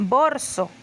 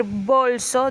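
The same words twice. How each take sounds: First: "borso", the l of bolso turned to r; rhotacism. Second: Said in the usual way. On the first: Shown as a demonstration. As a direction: say "borso" with an r in place of the l, slowly. ("borso" con r en vez de l) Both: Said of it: "En vez de decir bolso".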